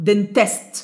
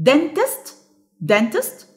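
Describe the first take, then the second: First: Dentist as den-TEST, second syllable strong; stress on second syllable. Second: Dentist as DEN-tist, first syllable strong; stress on first syllable. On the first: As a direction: put the weight on the end of dentist. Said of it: "ولا المفروض اقول". (dentist بالضغط على المقطع الثاني) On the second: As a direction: stress the DEN in dentist, questioning lift at the end. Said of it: "هل انا مثلًا المفروض اقول". (dentist بالضغط على المقطع الأول) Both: Shown as a demonstration.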